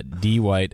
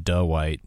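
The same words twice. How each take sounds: First: D White said slowly as "dee-white"; D White as two separate syllables, "dee" first; mispronounced name. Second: Duh White said slowly as "duh-white"; mispronounced name. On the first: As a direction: draw out "dee" before "white" in D White. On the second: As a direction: put a slow "duh" before "white" in Duh White. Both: Retold or imitated. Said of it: "those are the two".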